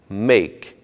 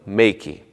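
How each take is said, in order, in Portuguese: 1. A palavra termina no seu som de consoante final. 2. Uma vogal extra 'ee' segue a consoante final. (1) "Não se pronuncia o som do I no final" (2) "e não"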